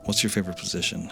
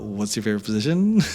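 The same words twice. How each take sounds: First: It is said calmly, then followed by silence. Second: It is said with giggling and laughter. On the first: The asker feels confident and builds tension. The speaker calls it right. "A little smirk, a little pause" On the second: The asker feels nervous and unsure. The speaker calls it wrong. "And like giggle and laugh"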